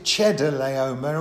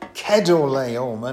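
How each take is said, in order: First: The name begins with a sound like 'cheddar'. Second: The name does not begin like 'cheddar'. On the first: The speaker calls it wrong. "I always used to pronounce it Chedorlaomer" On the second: The speaker calls it right. "apparently it should be pronounced Chedorlaomer"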